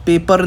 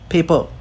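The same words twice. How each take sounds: First: पेपर with the final r sounded; pronounced r. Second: पेपर as "pey-pa", the final r dropped; silent r. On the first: Teacher showing what is not said there, पेपर with its r. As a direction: close पेपर on a clear r. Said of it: "आप पेपर नहीं बोलते वहाँ पे". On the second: Teacher explaining American accent, पेपर with silent r. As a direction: end पेपर on an open vowel. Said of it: "American accent में silent हो जाता है". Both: Shown as a demonstration.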